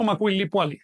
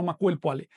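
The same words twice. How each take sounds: First: "Macuilli Puali" with the full -lli suffix kept; wrong pronunciation. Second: "Macuil Puali" with the -li suffix dropped; fuse it cleanly, "Macuil" straight into "Puali"; correct pronunciation. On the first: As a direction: show the wrong form, "Macuilli" said whole before "Puali". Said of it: "sino Macuil Puali". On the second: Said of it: "No digo Macuilli Puali". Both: Shown as a demonstration.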